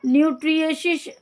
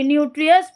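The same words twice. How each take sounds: First: न्यूट्रिशियस said with a sh sound, nyoo-TRI-shi-us; न्यूट्रिशियस with a stray sh sound before the self-correction; slip of the tongue. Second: न्यूट्रियस said nyoo-tri-us, with no sh sound; न्यूट्रियस said carefully after saying sorry; corrected pronunciation. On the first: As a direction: misreads the word as न्यूट्रिशियस with a shi in the middle. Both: Real, not acted. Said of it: "sorry, न्यूट्रियस".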